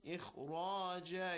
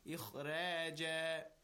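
First: The r is pronounced heavy, with a full back sound. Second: The r is pronounced light, with a thin sound. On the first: The speaker calls it right. "Ra is also with tafkheem" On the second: The speaker calls it wrong. "It's not"

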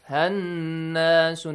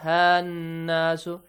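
First: The vowel after h is short. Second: The vowel after h is stretched long. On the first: The speaker calls it right. "Hannasu, not hannasu" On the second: The speaker calls it wrong. "not hannasu. Do not stretch it"

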